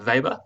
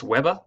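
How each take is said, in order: First: "Weber" said with a V for the W; proper pronunciation of Weber. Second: "Weber" said with an English W; common pronunciation of Weber. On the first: Teacher showing students the proper version, "Weber" opening on a V. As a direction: say "Weber" the German way, as VAY-ber. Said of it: "it's actually pronounced". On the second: Teacher showing students the common version, "Weber" with a W. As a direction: say "Weber" the everyday way, opening on a W sound. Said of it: "you'll hear it pronounced". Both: Shown as a demonstration.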